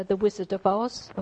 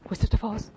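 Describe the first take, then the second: First: Said in the usual way. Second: Gasp, then a higher, louder mock-horrified Wizard of Oz; mock shocked gasp. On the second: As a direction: play at being scandalised by the title. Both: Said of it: "Should we be talking about such things?".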